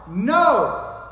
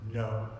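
First: "No!" punched high and very loud; emphatic NO. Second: Said in the usual way. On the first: Shown as a demonstration. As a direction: hit "No!" as a forceful, absolute refusal. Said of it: "the strongest way you can say no".

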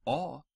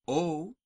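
First: O said as a short "aw"; short open "aw" for O; short Latin O. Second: O said as a long "oh"; drawn-out "oh" for O; long Latin O. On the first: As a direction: say O as a brief, open aw. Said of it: "The short vowels are as follows". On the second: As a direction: say O as a held oh. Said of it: "The long vowels in Latin". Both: Shown as a demonstration.

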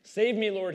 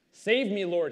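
First: A second urgent cry, a bit less loud; pleading shout from the water; shouted plea. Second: Urgent cry for help, louder; a narrator's raised plea to the Lord; shouted plea. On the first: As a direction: call out again for rescue. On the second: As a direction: call out as if sinking. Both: Acted. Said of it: "he shouted".

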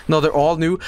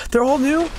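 First: Said in the usual way. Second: High, rising disbelief; surprised question. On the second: Real, not acted. Gamer realizes fragments are all new, surprised. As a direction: lift "new" sharply into a question.

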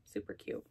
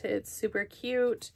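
First: Breathy whisper under her breath. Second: Said in the usual way. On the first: Real, not acted. Murmuring to herself over the cute wallet, whispered. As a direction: whisper it to yourself.

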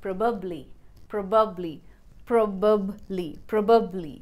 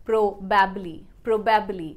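First: Probably said prob-uh-bly, middle vowel reduced; probably with a weak middle uh; correct probably. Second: Probably said pro-ba-bly, full middle a; probably with every vowel spelled out; wrong probably. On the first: (probably सही उच्चारण) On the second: (probably गलत उच्चारण) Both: Shown as a demonstration. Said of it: "the right pronunciation should be".

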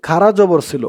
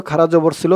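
The two takes are said the same way.

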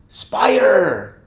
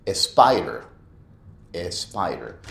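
First: Spider loud and high, s straight in; correct spider. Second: Spider as "espider", slow. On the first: Teacher models Spider without the e. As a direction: punch the s of Spider. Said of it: "decir s-, y luego el resto". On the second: Teacher mimics the wrong "espider". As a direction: lead into spider with an e. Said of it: "la otra es spider". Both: Shown as a demonstration.

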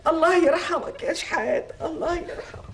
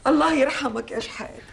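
First: Grieving lament. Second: Said in the usual way. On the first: Acted. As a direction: linger over the name in grief. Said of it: "repeated lament, slower". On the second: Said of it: "repeated lament".

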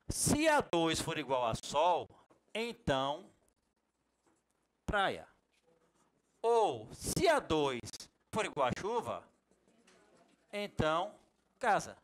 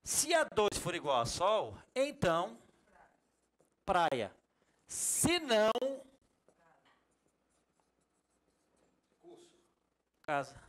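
First: Slow, spelled-out reading of the formula. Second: Slow reading with se não set apart; reading it differently. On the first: Teacher reads the IF formula slowly to students. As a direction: read each condition deliberately. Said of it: "Vou ler como eu falo". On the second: Teacher rereads the formula the new way to students. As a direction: read it the new way, with se não standing out. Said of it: "eu vou ler diferente". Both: Shown as a demonstration.

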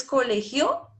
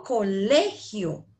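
First: Colegio slowly, stress shifted onto GIO, rising; misplaced final stress. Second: Colegio said slowly with LE stressed; teacher's slow model of co-LE-gio; stress on middle syllable. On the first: Retold or imitated. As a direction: ask it as cole-GIÓ. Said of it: "¿Tú dices colegio?". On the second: Shown as a demonstration. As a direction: lean hard on LE in colegio. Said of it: "yo digo colegio".

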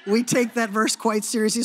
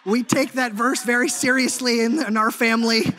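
First: Laughing through the words; real laugh as he repeats the joke. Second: Half-sung, louder, tongue in cheek; mock solemn chant. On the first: Real, not acted. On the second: Joking about obeying his wife.

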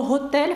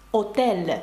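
First: Said in the usual way. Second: "отель" starting on the vowel, no H; French silent H. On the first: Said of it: "але не вимовляється". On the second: Shown as a demonstration. Teacher giving the French word, H left silent. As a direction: drop the H, begin "отель" on O. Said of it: "французькою буде".

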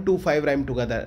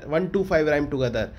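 First: Said in the usual way. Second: Slowly spelling out one, two, five for notes; one, two, five said slow and deliberate, word by word; dictating to students; slow dictation. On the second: Shown as a demonstration.

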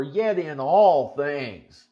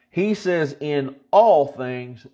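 First: All drawn out slowly; slow, weighty all; stress on all. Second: All drawn out slow and louder; stress on all. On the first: Preacher asking them to underline all, slow. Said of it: "underline that word all". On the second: Preacher driving home the word all, slow. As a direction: hit all slowly and firmly. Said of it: "underline the word all". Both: Shown as a demonstration.

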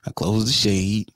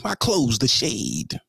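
First: Drawn-out low repeat; slower, lower repeat of I close the shade; slower and lower for effect. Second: Slow for effect. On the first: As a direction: savour each word of I close the shade. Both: Shown as a demonstration.

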